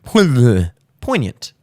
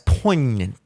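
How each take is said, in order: First: The word is clearly said with a silent g. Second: The word is mumbled and barely articulated. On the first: The speaker calls it right. "I meant to make the G silent" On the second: The speaker calls it wrong. "I wound up making every letter silent in that word"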